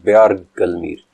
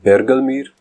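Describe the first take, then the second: First: The first syllable sounds like 'byar' with a glide. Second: The first syllable sounds like plain 'ber'. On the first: One who calls out in the mountains. "दो तलफ़्फ़ुज़ हैं" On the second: One who roars like a bear. "दो तलफ़्फ़ुज़ हैं"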